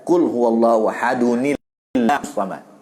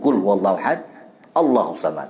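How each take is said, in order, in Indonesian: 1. Ahad tersambung ke Allahu lewat bunyi n. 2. Ahad dan Allahu dibaca sebagai kata yang terpisah. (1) "Kalau kita sambung di nil" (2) "kalau nggak sambung"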